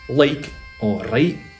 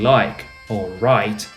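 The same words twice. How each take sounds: First: The vowel has a non-English diphthong. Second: The vowel has a standard English diphthong. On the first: The speaker calls it right. "you say like or right" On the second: The speaker calls it wrong. "instead of saying like or right"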